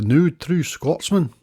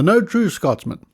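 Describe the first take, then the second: First: It is said in a put-on Scottish accent. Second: It is said in the speaker's ordinary accent.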